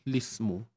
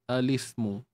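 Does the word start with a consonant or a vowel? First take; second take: consonant; vowel. First: The word begins directly with an 'l' sound. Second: The word begins with a short 'a' vowel.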